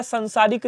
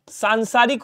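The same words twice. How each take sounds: First: संसारिक with short first a; wrong short vowel. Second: सांसारिक with long first aa; correct long vowel. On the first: Teacher showing students the error, संसारिक starting "san". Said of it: "नहीं होता". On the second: Teacher correcting students, सांसारिक starting "saan". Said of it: "होता है". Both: Shown as a demonstration.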